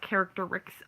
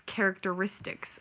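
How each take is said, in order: First: "characteristics" cut short to care-ik-ter-iks; imitated mispronunciation. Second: "characteristics" with every syllable, ending -istics; correct pronunciation. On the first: Showing the woman what not to say, mispronounced word. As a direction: drop the -ist- from "characteristics". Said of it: "not characteristics of this". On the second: Shown as a demonstration. Correcting the woman who keeps saying it, correct pronunciation. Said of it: "you've said it three times already".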